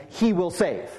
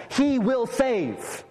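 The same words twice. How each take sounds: First: Said in the usual way. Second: "He will save" drawn out very slowly, every word weighted; slow emphatic. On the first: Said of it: "The explanation of that name is". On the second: Shown as a demonstration. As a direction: let each word land, slow and deliberate. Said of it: "The angel says".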